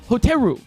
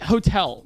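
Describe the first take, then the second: First: It is said with a Japanese pronunciation. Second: It is said with an English pronunciation. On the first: The speaker calls it right. "it's hoteru" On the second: The speaker calls it wrong. "if you say like hotel, like no"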